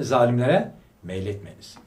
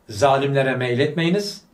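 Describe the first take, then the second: First: Zalimlere punched, meyletmeyiniz falling after it; stress on Zalimlere. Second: Slow, loud, meyletmeyiniz rising at the end; slow verse recitation. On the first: Preacher correcting his listeners, stressing Zalimlere. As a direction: lean hard on Zalimlere, then let meyletmeyiniz drop. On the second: Preacher quoting the verse to his congregation, slow and loud. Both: Shown as a demonstration. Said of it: "zulmetmeyiniz demiyor".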